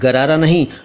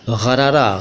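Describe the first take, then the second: First: The first consonant is a plain g sound. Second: The first consonant is a throaty, gargled g sound. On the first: The speaker calls it wrong. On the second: The speaker calls it right. "देखो मैं कैसे ग ग कर रहा हूँ"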